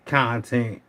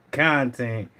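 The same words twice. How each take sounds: The two takes are said the same way.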